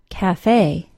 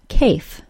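First: Two syllables, the stressed last one ending in ay. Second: One syllable with a long A and silent E. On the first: The speaker calls it right. "the final syllable is stressed and is pronounced with a long A sound" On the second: The speaker calls it wrong. "you don't expect it to be pronounced cafe"

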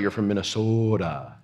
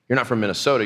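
First: The O in Minnesota is drawn out long. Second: The O in Minnesota is ordinary and short.

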